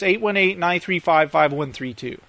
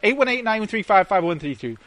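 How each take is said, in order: First: The number is read at a slower pace. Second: The number is read at a faster pace.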